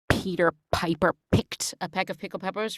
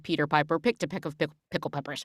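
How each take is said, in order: First: The p sounds make loud puffs of air. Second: The p sounds are clean without air puffs. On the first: The speaker calls it wrong. "popping is" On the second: The speaker calls it right. "rather than"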